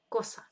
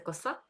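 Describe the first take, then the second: First: The stress is on the first syllable. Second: The stress is on the second syllable. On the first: This is the Spanish word for a thing. "а тут на перший склад наголос коса" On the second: This is the Ukrainian word. "У нас це коса"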